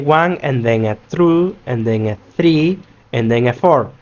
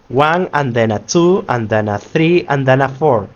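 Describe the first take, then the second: First: Each small word is said fully and separately. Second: The small words are reduced and run together. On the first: The speaker calls it wrong. "We don't say" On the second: The speaker calls it right. "We say in this way"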